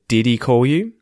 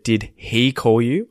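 First: The H sound in 'he' is dropped. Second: The H sound in 'he' is clearly pronounced. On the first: "I say did he call you" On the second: "I haven't said did he call you"

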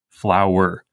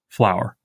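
First: The word is said with two syllables. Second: The word is said with one syllable. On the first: "we pronounce flower as two syllables" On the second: "pronounce it as one syllable"

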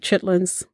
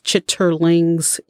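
First: The word is said in a shortened form. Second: The word is said in its full form.

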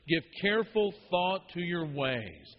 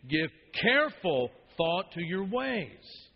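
First: No word stands out; all are equally loud. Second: The word careful is louder than the rest.

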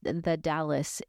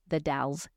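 First: The name sounds like the city Dallas. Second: The name does not sound like Dallas. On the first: The speaker calls it wrong. "It's not pronounced the Dallas" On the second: The speaker calls it right. "It's called the Dalles"

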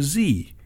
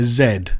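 First: The letter is said the American way, zee. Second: The letter is said the British way, zed.

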